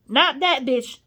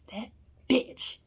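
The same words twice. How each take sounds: First: Not "that" bitch, with the word that stressed. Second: Said in the usual way. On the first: Real, not acted. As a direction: punch "that" to correct yourself.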